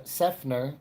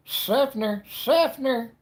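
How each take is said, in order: First: Said in the usual way. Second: High, loud, hammed-up "Seffner"; exaggerated town name. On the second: Shown as a demonstration.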